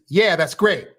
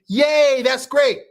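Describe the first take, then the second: First: It is said flatly, without excitement. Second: It is said with excitement.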